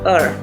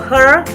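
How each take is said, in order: First: The word starts without any h sound. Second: The word starts with a clear h sound. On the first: "will be spoken like ... er" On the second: "when it's written"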